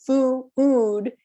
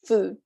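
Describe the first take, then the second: First: FOO-OOD stretched into two syllables; wrong two-syllable food. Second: Said in the usual way. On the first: Shown as a demonstration. Teacher showing students a mistake, foo-ood split in two syllables. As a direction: break "foo-ood" in two, vowel drawn out. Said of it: "it's just one syllables. It's not". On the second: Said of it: "one syllable".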